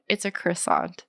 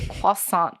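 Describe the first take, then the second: First: CROISSANT said as kriss-AHNT, with an English R; anglicized "croissant", sounding the R and final T; English pronunciation. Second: CROISSANT said the French way as kwa-SAHNT; French-style pronunciation. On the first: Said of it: "so I say croissant". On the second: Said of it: "That's, like, French influence". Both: Shown as a demonstration.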